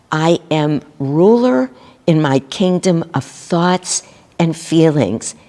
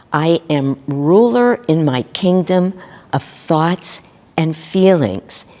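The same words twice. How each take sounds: Both takes have the same delivery.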